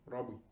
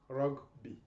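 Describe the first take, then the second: First: The g and b blend quickly together. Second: The g and b are said separately. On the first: "fast, you will get word like rugby" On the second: "you will have the sound of this B separately"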